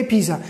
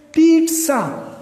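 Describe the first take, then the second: First: پیزا said as spelt, "pee-za" with no t; phonetic misreading. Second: پیٹزا as "PEET-sa", slow and drawn out; correct pronunciation. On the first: Teacher shows learners the phonetic reading, پیزا as "pee-za", spelling-based mispronunciation. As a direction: read پیزا with a plain z, no "ts". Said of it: "فونیٹیکلی تو اس طرح ہے". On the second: Teacher gives learners the right form, پیٹزا as slow "peet-sa", careful model pronunciation. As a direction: say پیٹزا slowly with a clear "ts", higher pitch. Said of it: "اس کی سر-، صحیح تلفظ کیا ہے". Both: Shown as a demonstration.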